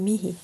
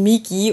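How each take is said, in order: First: The middle consonant is an h sound. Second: The middle consonant is a hard g sound. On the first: The speaker calls it right. "aber man sagt Mihi" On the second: The speaker calls it wrong. "man schreibt es Migi"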